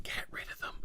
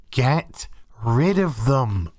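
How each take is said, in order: First: Breathy unvoiced aside; whisper. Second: Slow, lower, deliberate repeat. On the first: Ranter muttering about the crew, under-the-breath whisper. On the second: Ranter repeating his verdict on the crew, slow and firm. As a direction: say it slowly and firmly. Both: Real, not acted.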